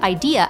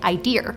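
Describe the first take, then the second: First: The word ends in a plain vowel, no R. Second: The word ends with an added R sound. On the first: The speaker calls it right. "instead of" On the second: The speaker calls it wrong. "I used to say"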